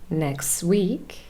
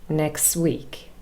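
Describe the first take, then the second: The two takes are said the same way.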